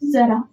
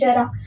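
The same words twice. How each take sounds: First: The word begins with a z sound. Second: The word begins with a j sound. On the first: The speaker calls it right. "ये सही pronunciation है" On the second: The speaker calls it wrong. "उच्चारण में कितना मतलब awkward लगता है"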